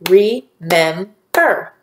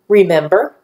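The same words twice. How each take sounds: First: "Remember" very slowly in three beats, re, mem, ber; split into syllables. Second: Said in the usual way. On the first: Shown as a demonstration. Teacher clapping syllables with students, "Remember" slowly split in three. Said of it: "Let's clap the syllables that you hear". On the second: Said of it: "Say the word".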